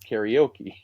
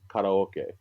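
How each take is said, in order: First: It is said the anglicized way: carry-oh-key. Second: It is said with Japanese vowels: kah-rah-oh-keh. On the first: "we bastardized it and now it's called karaoke" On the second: "So it's empty orchestra is karaoke"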